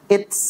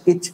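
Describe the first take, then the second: First: The final t is followed by an s hiss. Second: The final t becomes a ch friction. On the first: "Bukan at, it's, uts. Bukan" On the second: "Atau ach, ich, uch"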